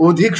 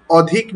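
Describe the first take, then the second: First: অধিক with an open "aw" first vowel; first vowel of অধিক left open, not rounded to "o"; open-vowel pronunciation. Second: অধিক with a rounded "o" first vowel; first sound of অধিক like ও; closed o pronunciation. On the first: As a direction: say অধিক as "aw-dhik". উচ্চারণটি কি অধিক নাকি অধিক. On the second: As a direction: say অধিক as "o-dhik". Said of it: "উচ্চারণটি ও এর মতো হবে". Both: Shown as a demonstration.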